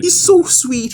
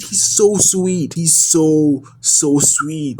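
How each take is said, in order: First: High, delighted squeal over the droid; gushing squeal. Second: Slow tender gush. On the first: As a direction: squeal it like you adore him. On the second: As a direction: melt over each word, very slow. Gushing over the Andor droid. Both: Real, not acted.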